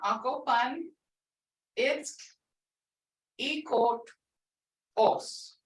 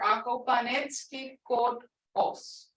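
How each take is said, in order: First: It is said slowly, bit by bit. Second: It is said at a faster pace.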